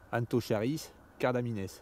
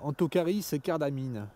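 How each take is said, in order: First: The final S is clearly pronounced. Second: The final S is silent, French style. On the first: The speaker calls it right. "cardamine prend un S, donc on doit dire" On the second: The speaker calls it wrong. "tout à l'heure j'ai dit"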